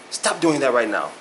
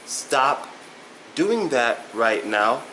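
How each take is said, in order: First: The phrase is said quickly, at full speed. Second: The phrase is said slowly and carefully. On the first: The speaker calls it right. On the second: The speaker calls it wrong.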